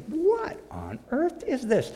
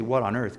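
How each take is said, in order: First: Much higher, slow astonished question; "What" rising high and slowing in amazement. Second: Said in the usual way. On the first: Retold or imitated. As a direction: voice jumping up in wonder. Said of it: "You say". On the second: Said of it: "I was gonna say".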